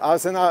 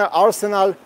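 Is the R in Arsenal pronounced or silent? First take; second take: silent; pronounced. First: The R sound after the first vowel is silent. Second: The R sound after the first vowel is pronounced. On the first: The speaker calls it right. "I try to speak British English" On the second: The speaker calls it wrong. "I shouldn't pronounce R"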